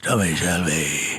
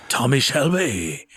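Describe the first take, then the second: First: Much lower, slow Birmingham rumble of Tommy Shelby. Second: Low, slow Birmingham growl of a name; Tommy Shelby impression. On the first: Retold or imitated. Redoing the impression on request, deep Birmingham accent. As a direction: drop way down and drag the name out, Birmingham style. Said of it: "Go ahead". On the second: Quoting Pacino to Cesar Romero, low Birmingham accent. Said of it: "impression was".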